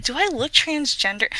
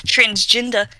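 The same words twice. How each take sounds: First: Said in the usual way. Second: Transgender with a Kiwi vowel; New Zealand accent. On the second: Shown as a demonstration. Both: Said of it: "That's me saying that in a New Zealand accent".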